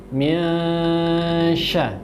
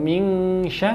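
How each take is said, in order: First: The n is a hidden nasal between n and ng. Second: The n is pronounced as a full ng. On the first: The speaker calls it right. "tapi min sya" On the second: The speaker calls it wrong. "atau ming sya"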